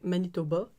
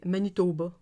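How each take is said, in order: First: Manitoba said the standard French way, with a short O; standard French pronunciation. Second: Manitoba with the O stretched out a bit; Canadian French pronunciation. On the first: Demonstrating standard French to listeners, Manitoba with an unstretched O. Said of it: "in sort of standard French". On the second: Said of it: "the O would get stretched out". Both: Shown as a demonstration.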